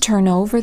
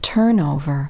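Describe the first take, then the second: First: The stress is on the second part, over. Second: The stress is on the first part, turn. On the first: It names an action: flipping something. "The stress falls on the second part of a phrasal verb" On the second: It names a thing: staff replacement. "the stress usually falls on the first part of a compound noun"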